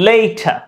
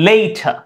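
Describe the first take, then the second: No difference in how they are said.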